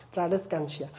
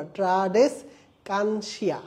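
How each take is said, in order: First: Said in the usual way. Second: ট্রাডেসকানসিয়া very slowly, broken into syllables; pronunciation demo. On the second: Shown as a demonstration. Teacher showing students how to pronounce it, ট্রাডেসকানসিয়া slowly syllable by syllable. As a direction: sound out ট্রাডেসকানসিয়া piece by piece, drawn out. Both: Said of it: "উচ্চারণটা এভাবে করবা".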